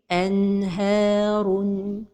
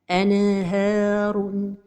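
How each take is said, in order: First: The N flows smoothly into the H. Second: The N is released with a small bounce. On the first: The speaker calls it right. "la prononciation correcte est" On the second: The speaker calls it wrong. "La première erreur, c'est al-qalqalah de an-noun as-sakina"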